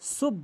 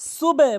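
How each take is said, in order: First: The syllable is cut off short after b. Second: The syllable carries on into a following vowel. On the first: The speaker calls it wrong. "আমরা অধিকাংশ লোক ভুল বলি, সুব বলি" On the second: The speaker calls it right. "সুবে বলতে হবে"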